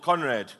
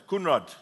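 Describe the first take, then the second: First: Conrad said the English way; name said English way. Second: Kunrad with a short 'koon' first syllable; name said Afrikaans way. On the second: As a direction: say Kunrad the Afrikaans way, koon-rad. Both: Real, not acted. Corrects the man's name.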